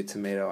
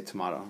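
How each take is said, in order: First: Tomato said tuh-MAY-toh; tomato with 'may'. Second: Tomato said tuh-MAH-toh; tomato with 'mah'. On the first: Teacher quoting the saying, tomato as tuh-MAY-toh. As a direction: give tomato a long 'ay' in the middle. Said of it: "you say tomato". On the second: Teacher finishing the saying, tomato as tuh-MAH-toh. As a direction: give tomato a broad 'ah' in the middle. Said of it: "I say tomato". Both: Shown as a demonstration.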